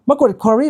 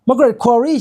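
First: Said in the usual way. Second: "Margaret Qualley" drawn out slowly and higher, each syllable spelled out; slow, questioning "Margaret Qualley"; careful name check. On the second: Shown as a demonstration. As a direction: sound out "Margaret Qualley" slowly, rising as if unsure. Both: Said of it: "ใช่ไหม".

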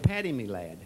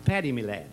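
First: A light Irish lilt on "Paddy, me lad", a bit lower; Irish accent. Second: "Paddy, me lad" redone in a mild Irish brogue; retelling the joke, mild Irish accent on the greeting. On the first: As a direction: greet him as a jolly Irish boss, lightly Irish. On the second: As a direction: try the Irish greeting again, lightly. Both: Retold or imitated. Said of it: "I do a good Irishman".

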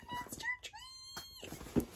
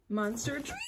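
First: High, slow, breaking cry of joy; tearful squeak. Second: Said in the usual way. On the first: Real, not acted. To viewers on seeing the tree's name, a tearful high squeak. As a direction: let the voice crack up high with emotion.

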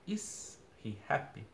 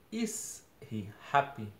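First: "Is he happy?" asked slowly with a rising question tune; teacher models "Is he happy?" as a real question, drawn out; question intonation. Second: Said in the usual way. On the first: Shown as a demonstration. Teacher showing students the question tune. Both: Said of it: "Eu até mudo a entonação".

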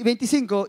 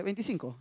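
First: Said in the usual way. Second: Put-on posing as older. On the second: Young suitor telling the pastor his age, quietly posing as mature. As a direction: say it softly, trying to pass for older. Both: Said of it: "Para que me vea como que estoy más grande y mayor".

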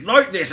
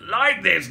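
First: "like this" retried between Cockney and Somerset accents; failed accent attempt. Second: "like this" with a shifting vowel, between Cockney and Somerset; wavering Somerset accent. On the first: Giving up on the accent, a wobbly Somerset attempt. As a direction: have another stab at a West Country accent. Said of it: "I can't fucking do it". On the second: Testing his accent aloud, wavering into Somerset accent. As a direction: try "like this" in a West Country accent. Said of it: "go in between accents". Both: Shown as a demonstration.

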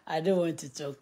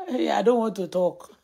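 First: Said in the usual way. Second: Laughing. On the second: Real, not acted. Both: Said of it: "I can't stop laughing".

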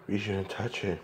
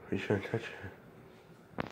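First: Said in the usual way. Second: Slow breathy whisper. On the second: Acted. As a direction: hush it out slowly. Repeats warning in a whisper.

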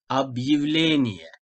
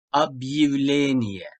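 First: "Объявление" again slowly with yi: ab-yi-vle-ni-ye; drawn-out model of "Объявление"; slow yi after hard sign. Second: "Объявление" with a slow yi sound: ab-yi-vle-ni-ye; slow yi after hard sign. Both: Shown as a demonstration. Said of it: "o zaman yi sesi".

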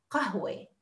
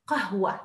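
First: Teacher modelling the standard word; classical Arabic. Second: قهوة said qahwa with a final a; teacher offering the second form; alternative ending. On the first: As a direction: spell out قهوة as classical qahwe. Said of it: "The Arabic classical is قهوة". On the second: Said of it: "also say قهوة". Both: Shown as a demonstration.

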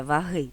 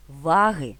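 First: «ваги» said va-HY, stress on the last syllable; наголос на другому складі: ваги́; stress on second syllable. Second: «ваги» said VA-hy, stress on the first syllable; наголос на першому складі: ва́ги. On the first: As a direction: stress the end of «ваги», va-HY, as the wrong form. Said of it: "а не ваги". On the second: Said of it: "називається ваги, а не ваги". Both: Shown as a demonstration.

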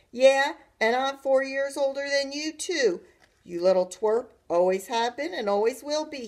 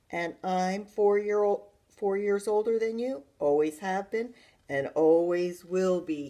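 First: Loud, higher taunting call; calling after. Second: Put-on emphatic older-brother sneer. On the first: Brother to his retreating sister, calling out. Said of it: "he called after me". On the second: Brother boasting he is four years older, sneering. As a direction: lord it over her with a sneer. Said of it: "he sneered". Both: A narrator's reading.

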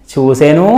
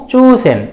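First: చూసెను with an open u ending, rising; full final ను. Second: చూసెన్ closed on a bare n, pitched high; చూసెన్ with no vowel after n; vowelless final n. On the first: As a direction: say the whole ను in చూసెను. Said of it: "ను అన్నట్లుగా కూడా ఉండొచ్చు". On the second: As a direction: cut the u, end చూసెన్ on n. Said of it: "పొల్లులాగానే". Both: Shown as a demonstration.

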